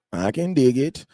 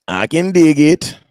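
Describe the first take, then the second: First: Said in the usual way. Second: Much louder, slower hype shout. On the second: Real, not acted. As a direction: belt it out to pump up the stream. Hyping himself going live.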